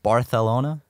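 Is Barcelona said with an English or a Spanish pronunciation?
Spanish. It is said with a Spanish-style pronunciation. This is how the locals say it. The speaker calls it wrong. "Why do they say it like that?"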